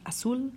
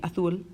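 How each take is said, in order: First: The z is said as an s sound. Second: The z is said as a th sound. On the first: This is how most Spanish-speaking countries say it. "in most Spanish-speaking countries, it is just a simple S sound" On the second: This is how it is said in Spain. "If you go to Spain, this is um, theta"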